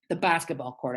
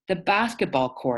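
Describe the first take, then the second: First: It is mumbled quietly. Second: It is said louder.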